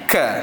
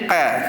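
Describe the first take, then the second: First: The consonant is light with air released after it. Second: The consonant is pressed hard with no air released. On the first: The speaker calls it right. "bila kita keluarkan angin ka" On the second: The speaker calls it wrong. "kalau kita tak keluarkan angin jadi qa"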